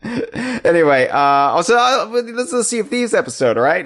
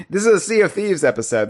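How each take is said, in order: First: Slurry tipsy talk, high and fast. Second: Said in the usual way. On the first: Real, not acted. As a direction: sound like you've had a few. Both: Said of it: "why am I talking like a drunk?".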